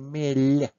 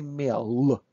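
First: The final L sound is soft. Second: The final L sound is hard. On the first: The speaker calls it right. "say mel. L, soft sign at the end" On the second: The speaker calls it wrong. "Do not say mel"

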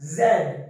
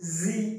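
First: The letter is said as 'zed'. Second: The letter is said as 'zee'. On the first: This is the British English way. "British English মত ইয়োগার করিবে রে" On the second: This is the American English way. "American English মত করিবে রে"

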